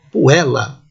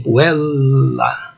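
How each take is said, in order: First: Said in the usual way. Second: "puella" with a long E and held double L; long vowel pronunciation. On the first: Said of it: "Vejam esta palavra". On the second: Shown as a demonstration. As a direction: draw out "puella" as pu-EEL-la. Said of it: "Então a pronúncia seria assim".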